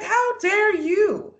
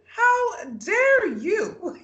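First: Slow, high, offended how dare you; slowly drawn out, hurt and indignant. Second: Very slow, high mock-outraged shout; indignant shout. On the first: Retold or imitated. Retelling Haley's hurt reaction to Jacob, drawn-out indignation. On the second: Retelling Haley answering Jacob's accusation, hammed-up outraged shout. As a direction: stretch it out into a hammed-up outraged cry. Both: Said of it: "Haley is so genuinely hurt by this".

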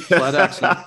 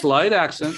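First: Louder, laughing repeat of slight accent; laughing emphasis. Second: Said in the usual way. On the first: Shown as a demonstration. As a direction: tease it with a laugh. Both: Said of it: "I'll tell slight accent".

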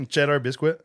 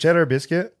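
First: Cheddar biscuit dicho como biscuit con w; natural accent. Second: Cheddar biscuit, dicho fuerte y alto; careful cheddar biscuit. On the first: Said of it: "say it how you'd actually say it". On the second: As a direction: Cheddar biscuit en tono de pregunta. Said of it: "say cheddar biscuits". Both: Shown as a demonstration.

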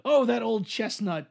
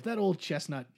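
First: Mock weary voice. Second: Said in the usual way. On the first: Mock weary storyteller quip.

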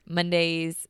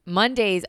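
First: Said in the usual way. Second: Mondays said louder with a falling end; firmer redo of Mondays. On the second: Shown as a demonstration. Host redoing a word she fumbled, said firmly. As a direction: punch out Mondays properly this time. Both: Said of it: "I said that so weird".

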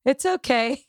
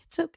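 First: Higher, lightly put-on daughter voice saying It's okay; imitating the daughter. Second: Said in the usual way. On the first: Daughter Avery calming her crying mother, high put-on voice. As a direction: play the daughter reassuring mom. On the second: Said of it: "And she was like".

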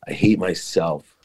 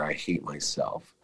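First: Said in the usual way. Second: Much softer, slow, drained; quiet final admission. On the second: Retold or imitated. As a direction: let it fall away to almost nothing, slowly. Inner realization repeated, fading.

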